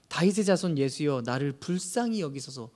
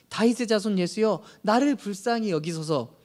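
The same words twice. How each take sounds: First: It is said at a normal, softer volume. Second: It is shouted loudly and desperately.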